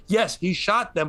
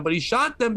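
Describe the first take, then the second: First: Said in the usual way. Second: Shot lifted high and leaned on; stress on shot. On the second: Shown as a demonstration. Arguing to the cohost with stress on shot. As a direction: hit the word shot to drive the point home.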